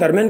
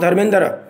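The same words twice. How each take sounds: First: The name is said shortened, with sounds dropped. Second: The name is said in full, with all sounds. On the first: This is the everyday reduced pronunciation. "हम धर्मेंद्र करके रह जाते हैं" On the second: This is how it is pronounced in Punjab. "पूरे रूप में"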